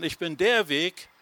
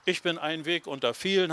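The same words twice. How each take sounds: First: "der" punched as the one and only; stress on "der". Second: Said in the usual way. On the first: Shown as a demonstration. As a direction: hit "der" firmly, against "ein Weg". (Betonung auf "der") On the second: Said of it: "hat er nicht gesagt".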